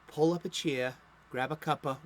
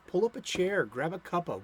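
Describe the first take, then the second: First: It is said in an exaggerated Boston accent. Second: It is said in the speaker's plain accent.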